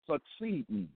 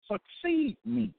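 First: Said in the usual way. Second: High, slow and drawn out, Succeed me spelled out word by word; slow emphatic command. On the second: Acted. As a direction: lean into "Succeed me" as a solemn divine order, slow and raised. Quoting God's command to succeed.

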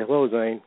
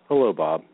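First: Said in the usual way. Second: Lower, lightly voiced Zane greeting; imitating Zane. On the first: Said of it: "I'd say". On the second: Bob mimics Zane's endless greeting, lower mock voice. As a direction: drop the pitch to mimic his greeting. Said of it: "he'd say".

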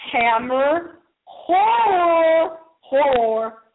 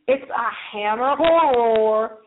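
First: "Hammer horror" said slowly, each r sounded with care; careful hammer horror. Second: Northern twang. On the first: Host corrects own northern twang, slowly saying "horror". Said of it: "Be careful how you say that". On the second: Host first says hammer horror in her northern twang. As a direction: drop the r in "horror", northern style. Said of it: "That's my northern twang". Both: Shown as a demonstration.

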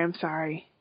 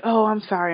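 First: The repeated apology dropped much softer. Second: Said in the usual way. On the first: Retold or imitated. Charlie backing off as Quinn pulls away, much softer apology. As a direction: let the second sorry fall away almost to nothing. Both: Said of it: "and he's like".

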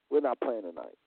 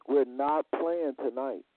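First: Said in the usual way. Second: "We're not playing tonight" said slowly, each word weighed; slow it right down and lean on every word of "We're not playing tonight"; slow, deliberate repeat. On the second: Shown as a demonstration.

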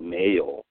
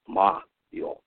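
First: "Mayo" said like the sandwich spread, MAY-oh; "Mayo" in the English mayonnaise way. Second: "Mayo" as Ma-Yo, open ah then yo; "Mayo" split in Japanese syllables Ma and Yo. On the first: Teacher showing the wrong English reading of "Mayo". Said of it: "pronunciation thing". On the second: Teacher giving the guest's Dharma name, Japanese Ma-Yo. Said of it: "consonant and vowel type of pairs". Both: Shown as a demonstration.

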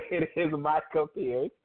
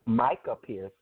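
First: Micah Pierce said slowly, each syllable clear; slow, careful name. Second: Said in the usual way. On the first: Shown as a demonstration. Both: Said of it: "not Makai".

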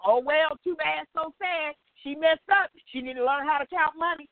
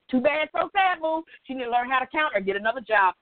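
First: Sing-song dismissive shrug of a voice; careless, mocking tone; mock callous old self. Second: Rattled off fast and dismissive; fast, flippant mock taunt; mock callous, faster. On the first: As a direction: brush it off like you don't care. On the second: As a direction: toss it away quickly with a scoff. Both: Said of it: "that's why I said it like that".

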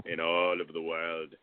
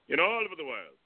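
First: Said in the usual way. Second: Put-on high Celtic Australian vampire accent; Celtic Australian vampire, pitched up high. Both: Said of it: "a Celtic Australian vampire voice".

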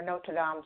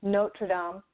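First: "Notre Dame" said the mistaken way, before correcting it; mispronounced Notre Dame. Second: "Notre Dame" said carefully as the correction; corrected Notre Dame. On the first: Co-host slips on the cathedral's name, mispronounced "Notre Dame". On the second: Co-host fixes her slip on the cathedral's name, corrected "Notre Dame". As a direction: restate "Notre Dame" firmly, putting the name right. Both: Real, not acted. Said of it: "sorry, I said it wrong".

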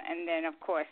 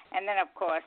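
The two takes are said the same way.

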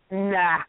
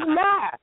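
First: Said in the usual way. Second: Nah pitched high and pushed out; mock dismissive nah. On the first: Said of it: "Again, she goes". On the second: Woman on the train turning down his seat with a high, dismissive Nah. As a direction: toss off a curt, high Nah. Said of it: "She says".

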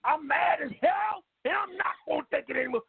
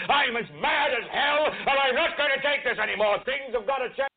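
First: Caller hollering the line; shouting. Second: Yell. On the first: Big Ike shouts the catchphrase. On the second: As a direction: bellow it into the street. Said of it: "stick your head out and yell". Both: Acted.

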